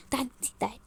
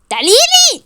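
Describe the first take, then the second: First: Much softer beckoning; low goading. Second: Loud, high-pitched challenge; furious shout. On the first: Woman dares rival to come over, quietly. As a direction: dare her over quietly. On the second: Woman dares rival to come at her, yelling. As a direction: yell the dare. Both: Acted.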